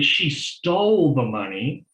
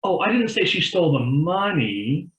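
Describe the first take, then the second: First: "stole" leaned on with a rising tune, slowly; slow it down and hit "stole"; stress on stole. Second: "didn't" punched up high with a rising tune; stress on didn't. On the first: Showing partner how emphasis on "stole" changes meaning. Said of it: "put an emphasis on one word". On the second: Showing partner the sentence stressed on "didn't" instead. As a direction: land hard on "didn't". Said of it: "same sentence two different ways". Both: Shown as a demonstration.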